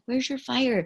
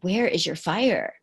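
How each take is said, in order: First: The question sounds gentle and kind. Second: The question sounds judgmental and accusing.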